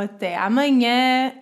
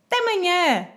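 First: Both words are said in full. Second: The first sound of each word is dropped. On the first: It is a neutral, non-colloquial goodbye. "sem ser com palavras coloquiais" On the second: It is an informal goodbye among friends or family. "cortamos também a segunda palavra e dizemos apenas té manhã"

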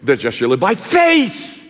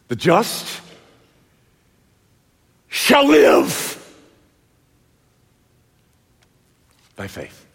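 First: The stress is on "faith". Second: The stress is on "live".

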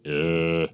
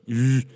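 First: The moan is quieter. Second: The moan is louder.

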